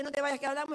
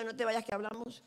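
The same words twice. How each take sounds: First: Brighter, louder, rising and friendly; a light, upbeat hint of a casual invitation; Quique's casual invite. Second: The same words, more measured with a rising ending; a hint of a serious talk coming; her own warning. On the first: Pastor Quique inviting a church member, light and upbeat. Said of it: "Cuando Quique te dice". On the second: Preacher warning a church member, mildly ominous. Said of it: "Cuando yo te diga".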